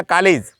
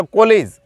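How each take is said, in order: First: कॉलेज with a plain o, no open vowel; college without the mark. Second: कॉलेज with the open English aw sound. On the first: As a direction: say कॉलेज with an ordinary o. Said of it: "मात्रा अगर हटा दी जाए". (बिना चिह्न वाला कॉलेज) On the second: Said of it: "यूं लगा दिया जाए ये वाला चिन्ह". (अंग्रेज़ी ऑ वाला कॉलेज) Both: Shown as a demonstration.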